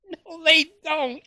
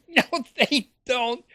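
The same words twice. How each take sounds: First: High, slow sarcastic no; mocking denial. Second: High laughing sarcastic no; laughing scoff. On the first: To viewers about church charity, mocking high-pitched denial. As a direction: scoff at the idea, pitched way up. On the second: Acted. To viewers about poor people's money, high laughing scoff. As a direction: laugh it off, mocking the claim.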